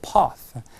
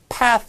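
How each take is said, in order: First: It is said with a British vowel. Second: It is said with an American vowel. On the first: The speaker calls it right. "영국식 발음은" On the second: The speaker calls it wrong. "영국식 발음은 path 아니고"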